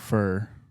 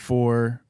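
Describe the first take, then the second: First: The vowel is a reduced "ur" sound. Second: The vowel is a full "or" sound. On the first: "I'm always saying fur" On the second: "Instead of saying four"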